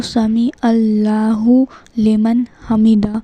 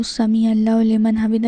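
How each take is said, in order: First: Slow, word-by-word recitation with long vowels; unhurried recitation. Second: Quick, run-together recitation; hurried recitation. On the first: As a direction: model it slowly and carefully for learners. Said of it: "آرام سے پڑھنا ہے". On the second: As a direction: rattle it off as a mistake to avoid. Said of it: "ایسے نہیں پڑھنا ہے". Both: Shown as a demonstration.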